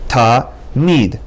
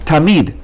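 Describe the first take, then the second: First: The word is broken by a pause between syllables. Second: The word is said smoothly without a break. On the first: "You can separate into ta and mid" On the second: "the examples are the word tamid"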